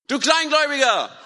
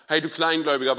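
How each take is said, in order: First: High, loud shout over a storm. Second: Said in the usual way. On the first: Acted. Jesus calling to Petrus in the storm, shouting. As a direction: yell it across wind and waves. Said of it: "Er muss geschrien haben". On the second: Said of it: "einfach nur gesagt hat".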